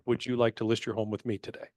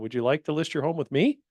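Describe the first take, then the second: First: The voice falls at the end. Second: The voice rises at the end.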